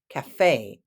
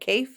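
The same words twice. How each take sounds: First: The stress is on the second syllable. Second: The stress is on the first syllable. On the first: The speaker calls it right. "emphasis on the second syllable" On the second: The speaker calls it wrong. "I know it looks like cafe"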